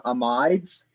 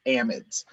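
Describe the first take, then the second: First: "amides" as uh-MYDZ, second syllable stressed; alternative pronunciation. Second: "amides" as AM-idz, first syllable stressed; preferred pronunciation. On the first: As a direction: say "amides" to rhyme with "tides": uh-MYDZ. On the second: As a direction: say "amides" with short vowels, AM-idz. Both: Shown as a demonstration. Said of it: "Some people that I respect pronounce them".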